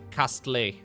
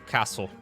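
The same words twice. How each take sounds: First: It is said in a French accent. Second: It is said in his plain accent.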